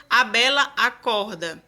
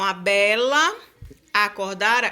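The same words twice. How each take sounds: First: Said in the usual way. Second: "a bela" with the two A sounds joined as one syllable; vowels merged. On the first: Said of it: "Compare a divisão gramatical". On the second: Shown as a demonstration. Teacher showing vowels merging across words. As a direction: run "bela" and "acordara" together, the A sounds fused. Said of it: "esses dois As é como se eles se unissem".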